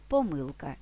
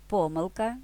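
First: ПоМИлка, stress on MY; stress on second syllable. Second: ПОмилка, stress on PO, rising end; stress on first syllable. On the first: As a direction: hit the middle syllable of поМИлка. (наголос на другий склад: поМИлка) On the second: (наголос на перший склад: ПОмилка) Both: Shown as a demonstration. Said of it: "подвійним наголосом".

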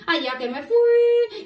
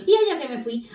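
First: Much higher, stretched-out last word; "fui" held long and high; high, drawn out. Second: Said in the usual way. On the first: Acted. Cuquín tells children of setting off, high and drawn out. Repeats it stretched to show journey.

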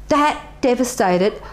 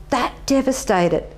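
Both takes have the same delivery.

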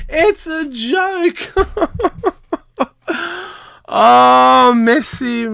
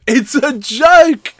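First: High, slow, half-laughing "It's a joke."; laughing in disbelief. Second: Higher, louder, slow disbelief; exasperated outburst. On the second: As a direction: spit out "It's a joke." slowly and loudly in disbelief. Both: Real, not acted. Ranting at the award.

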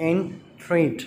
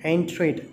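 First: Slow "entreat" in two separate beats; syllable by syllable. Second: Said in the usual way. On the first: Shown as a demonstration. Teacher counting syllables for children, "entreat" slowly split in two. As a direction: break "entreat" into en and treat with a pause. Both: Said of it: "two syllables".

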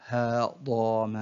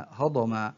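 First: Very slow, each syllable drawn out separately; broken into syllables. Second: Said in the usual way. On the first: Shown as a demonstration. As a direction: sound out the word syllable by syllable. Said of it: "تقطع الكلمة إلى حروف". (تقطيع الكلمة ببطء شديد مقطعًا مقطعًا) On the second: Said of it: "تقطع الكلمة".

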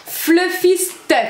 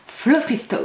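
First: Said in the usual way. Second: Fluffy Stuff. in a put-on English accent. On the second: Shown as a demonstration. (avec l'accent anglais) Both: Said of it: "Avec l'accent anglais".

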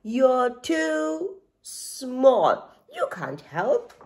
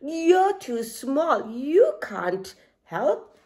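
First: Very slow, drawn-out haughty giraffe. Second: A lightly voiced lion, slow and mocking; Lion, scornful. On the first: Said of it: "laughed Giraffe". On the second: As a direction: drag it out like a smug lion. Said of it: "laughed Lion". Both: A narrator's reading.

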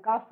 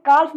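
First: काफ with the L left silent; काफ said as kaaf, no L sound. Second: काल्फ with the L wrongly sounded; wrong pronunciation with L. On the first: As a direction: drop the L, saying "kaaf" for काफ. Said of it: "एल को mute पढ़ते हैं". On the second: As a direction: say the L in काल्फ, as the mistake. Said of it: "एल silent हो जाता है यहाँ पे". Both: Shown as a demonstration.

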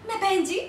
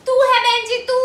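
First: Said in the usual way. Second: Loud, higher, stress on तू; indignant retort. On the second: Acted. Woman returning the "बहन जी" insult, indignant shout. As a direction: throw it back, punching तू. Throws the insult back at him.

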